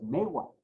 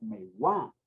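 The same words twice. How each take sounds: First: Megua said as ME-gua, first syllable stressed; accent the me of megua. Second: Megua said as me-GUÁ, final syllable stressed; stress on last syllable. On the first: Teacher contrasting two forms, megua stressed up front. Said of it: "ya no es megua". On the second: Teacher contrasting two forms, megua stressed on the end. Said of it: "ahora es megua". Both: Shown as a demonstration.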